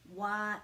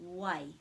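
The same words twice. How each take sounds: First: The vowels are said separately with a break. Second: The vowels run together without a break. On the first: "we're putting a break after the each vowel" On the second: "turns into"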